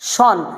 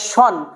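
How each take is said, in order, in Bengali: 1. শেষ অংশটি shun এর মতো উচ্চারিত হয়। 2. শেষ অংশটি shun এর মতো উচ্চারিত হয়।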